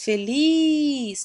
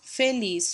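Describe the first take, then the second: First: "feliz" with LIZ long, high and loud; stressed last syllable. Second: Said in the usual way. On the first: Shown as a demonstration. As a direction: call out "feliz", stretching "liz". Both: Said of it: "também é oxítona".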